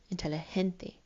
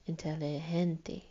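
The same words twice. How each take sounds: First: Inteligente with the stress on GEN. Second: Inteligente said slowly, GEN held and stressed. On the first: Teacher to class, letting them hear the emphasis. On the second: Teacher to class, a slower take so they hear it. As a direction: stretch out inteligente, lean on GEN. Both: Shown as a demonstration. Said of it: "You can kind of hear it".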